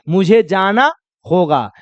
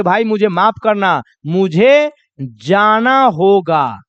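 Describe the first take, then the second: First: Said in the usual way. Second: Slow, apologetic leave-taking; sorry, friend, I have to go; polite apology. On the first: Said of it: "क्या बोलिएगा?". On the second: Shown as a demonstration. Teacher acting a guest leaving a party, slow and apologetic. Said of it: "वहां पर बोलेंगे".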